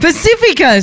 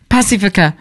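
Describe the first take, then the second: First: Pacifica said puh-SI-fi-kuh, a weak first syllable and stress on "si"; corrected Pacifica. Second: Pacifica said PA-si-fuh-kuh, a full "pa" and stress on the first syllable; first try at Pacifica. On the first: Repeating the co-host's correction, Pacifica said the proper way. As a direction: Pacifica copied from the co-host, stress on the second syllable. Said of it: "that's my accent there". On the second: Host unsure how to say it, attempts Pacifica. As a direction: Pacifica with an open first vowel, hitting the front. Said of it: "How do I say that, Brett?".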